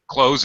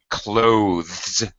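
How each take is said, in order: First: It ends with a z sound. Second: It ends with a voiced th sound. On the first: "pronounce this close with a Z sound" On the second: "Dictionary pronunciation would be with the th, the voice th sound"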